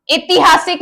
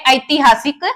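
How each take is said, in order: First: ऐतिहासिक said as "etihasik", short e at the start; first syllable as plain e, not ai; wrong form shown. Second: ऐतिहासिक said as "aitihasik", clear ai at the start; correct form shown. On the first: Teacher showing the wrong spelling of ऐतिहासिक, said etihasik. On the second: Teacher giving the correct ऐतिहासिक, with a clear ai. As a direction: open the first syllable as ai. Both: Shown as a demonstration. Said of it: "ऐतिहासिक नहीं होता है".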